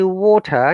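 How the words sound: It is said with a British pronunciation. "if I say water in British English"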